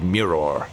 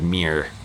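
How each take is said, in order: First: The word is said with a British accent. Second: The word is said with an American accent. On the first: "how the British people pronounce mirror, like how it's supposed to be said" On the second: "I think Americans say like M E E R"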